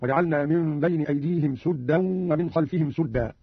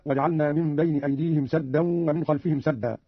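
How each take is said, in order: First: Both "سدا" said suddan, with u; slow reading, u after the س of each "سدا"; damma on sin. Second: Said in the usual way. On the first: Shown as a demonstration. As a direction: round the vowel of "سدا" to sudda, twice. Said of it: "بضم السين في الموضعين هكذا". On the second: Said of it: "قرأ قالون بضم السين".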